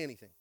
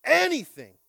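First: Said in the usual way. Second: Anything shouted high and loud; loud call and response. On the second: Shown as a demonstration. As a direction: belt out Anything. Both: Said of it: "Somebody say".

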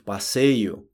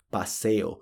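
First: "passeio" said the Portuguese way, pa-SEI-yu; slow "passeio" with a clear ei glide; Portuguese pronunciation. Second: "passeio" said the Spanish way, as paseo; slow Spanish "passeio", like pa-SE-o; Spanish pronunciation. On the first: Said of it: "Em português seria". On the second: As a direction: end "passeio" in a plain -eo, no glide. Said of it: "em espanhol fala". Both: Shown as a demonstration.

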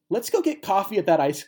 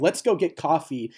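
First: Mocking. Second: Said in the usual way. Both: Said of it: "the weirdest line ever is spoken".

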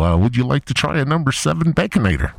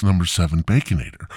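First: High, loud, upselling drive-thru voice on "number seven Baconator"; Harold from Wendy's. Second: Said in the usual way. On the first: Acted. Wendy's worker Harold upselling the caller, high and loud. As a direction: pitch the Baconator like a chipper cashier. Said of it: "this is Harold from Wendy's". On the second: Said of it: "No, Harold".

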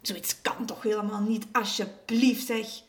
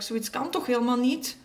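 First: Mildly indignant, stressing the please; a touch of firm outrage. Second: Earnest, rising at the end; earnest agreement. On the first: Neighbour condemns what the boyfriend does, mildly indignant. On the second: Alexander agrees with her in his thoughts, earnest. Boy's thought echoes neighbour's words. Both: A narrator's reading.

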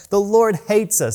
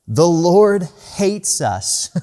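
First: Higher mock complaint. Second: Slow, drawn-out whining complaint; mock fearful Israelites. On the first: Preacher echoes the people's complaint, higher and mocking. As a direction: repeat it higher, half-laughing in mock despair. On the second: Preacher mimics the grumbling people, slow and drawn out. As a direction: drag it out like a sulking crowd. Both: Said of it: "That's their response".

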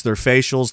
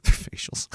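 First: Said in the usual way. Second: Amused, breathy repeat of the word; laughing whisper. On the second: Real, not acted.

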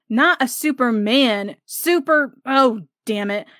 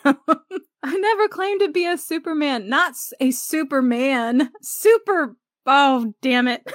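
First: Jack gets tongue-tied mid-taunt; flustered Jack. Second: Much higher, laughing, overplayed stumble on "Super"; laughing replay of Jack. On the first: A narrator's reading. Jack flubbing the word Superman. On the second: Shown as a demonstration. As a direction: relive the favorite line giggling. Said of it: "one of my favorite scenes".

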